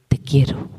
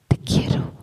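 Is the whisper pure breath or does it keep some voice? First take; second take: voice; voice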